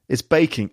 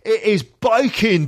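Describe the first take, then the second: First: The vowel in baking sounds like bake. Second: The vowel in baking sounds like bike.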